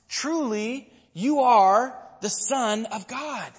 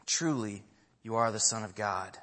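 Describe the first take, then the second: First: High, slow, ringing declaration; awed proclamation. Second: Low, softened declaration; hushed reverence. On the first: Disciples answering after the rescue at sea, slow high-pitched awe. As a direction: proclaim it slowly, pitched well up. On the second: Preacher closing the message on the disciples' words, low and reverent. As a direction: say it low and softly, as a reverent close. Repeats the response as quiet close. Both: Retold or imitated.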